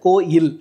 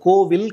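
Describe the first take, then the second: First: The middle consonant is a y sound. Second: The middle consonant is a v sound. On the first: The speaker calls it right. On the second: The speaker calls it wrong. "நம்ம கோவில் சொல்லுவோம், அது கோவில் கிடையாது"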